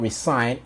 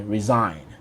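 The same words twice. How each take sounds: First: The middle consonant is a hissing s sound. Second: The middle consonant is a buzzing z sound. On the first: The speaker calls it wrong. "it's not resign" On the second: The speaker calls it right. "the S sounds more of a Z"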